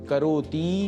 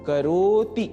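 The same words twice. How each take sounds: First: The final vowel is drawn out long. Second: The middle is stretched; the final vowel is short. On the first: The speaker calls it wrong. "करोति यह नहीं बोलना है।" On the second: The speaker calls it right. "करो इसको stretch यदि करेंगे ... त में ह्रस्व ई का ही उच्चारण हो"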